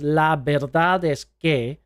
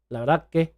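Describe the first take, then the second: First: Every letter is sounded, including the s. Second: The s sound is dropped out entirely. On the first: The speaker calls it wrong. "if we say all of the letters" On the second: The speaker calls it right. "They normally say la verdad que"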